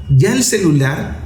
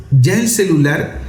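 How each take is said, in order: Both takes have the same delivery.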